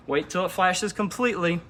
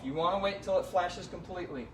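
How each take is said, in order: First: Louder, stressing completely hard; firm emphatic repeat. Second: Said in the usual way. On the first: Shown as a demonstration. Detailer repeating the key rule to his viewers, louder and emphatic. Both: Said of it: "That is key".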